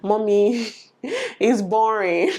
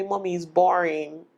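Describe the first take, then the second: First: Slow, stretched mock whine with a laugh; laughing, dragged-out imitation of a bored daughter; drawn-out child's whine. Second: Light imitation of a bored child; a hint of a bored little girl; child's complaint. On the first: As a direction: drag it out like a bored kid, laughing. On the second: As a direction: whine a little like a bored kid. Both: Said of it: "my daughter will tell me".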